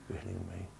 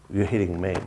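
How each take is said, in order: First: "You're hitting me" dropped to a near whisper; quiet, intimate echo of "You're hitting me"; hushed repeat. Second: Said in the usual way. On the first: Shown as a demonstration. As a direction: let "hitting" sink to almost nothing.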